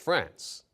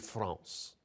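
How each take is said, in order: First: It is said with a plain American pronunciation. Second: It is said with a French-style pronunciation. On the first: "in layman's terms" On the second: "talking to a Parisian"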